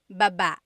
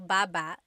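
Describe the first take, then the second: First: The stress is on the second syllable. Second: The stress is on the first syllable.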